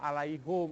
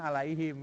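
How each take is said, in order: First: The last syllable is said with an 'u' vowel. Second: The last syllable is said with an 'i' vowel. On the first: The speaker calls it wrong. "itu salah itu" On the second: The speaker calls it right. "Harusnya alaihim ya"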